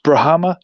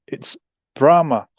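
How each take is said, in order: First: "Brahma?" imitated as "pra-HAM-a", a flat A like "ham"; mispronounced Brahma. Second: "Brahma" said right, as "BRAH-ma" with an open AH and a falling close; correct pronunciation. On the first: Host mimics the bad "Brahma?", said "pra-HAM-a". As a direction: echo "Brahma?" wrongly, as "pra-HAM-a" with a rising question. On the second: Shown as a demonstration. Host corrects the name, clearly saying "BRAH-ma". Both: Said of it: "he mispronounced the name".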